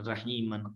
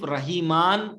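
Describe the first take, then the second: First: The ending is a short 'an' sound. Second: The ending is a long 'aan' sound. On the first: The speaker calls it right. "सिर्फ दो जबर को पढ़ते हैं अन के साथ" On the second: The speaker calls it wrong. "हम अलिफ रहीमान करके नहीं पढ़ते"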